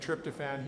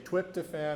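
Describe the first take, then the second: First: The word is said with a normal R sound. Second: The R is replaced by a W sound.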